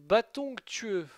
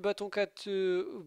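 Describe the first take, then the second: First: The second word sounds like 'tueux'. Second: The second word sounds like 'cateux'. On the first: The speaker calls it right. "voilà" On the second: The speaker calls it wrong. "je le prononçais mal depuis tout ce temps"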